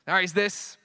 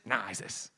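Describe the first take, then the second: First: Higher, rising at the end; retcon assertion. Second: Low, soft dismissal; offhand reversal. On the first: Comic fan showing retcons flip back and forth, assertive. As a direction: propose it high and ready. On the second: Comic fan showing retcons flip back and forth, dismissive. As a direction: drop it low, taking it back. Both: Acted.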